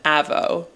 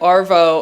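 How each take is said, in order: First: No r sound is heard before the v. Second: An r sound is heard before the v. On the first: "if you say it in an Australian accent" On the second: "So it's like arvo and avo"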